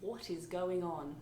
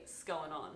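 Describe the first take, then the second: First: "What is going on" slow, each word separate; slow, careful full form of "going on"; fully spelled out. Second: "going on" slurred into one word after a bare S; clipped-down "'S going on" as one word; run-together Australian greeting. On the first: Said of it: "It means". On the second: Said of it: "we kind of run everything together". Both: Shown as a demonstration.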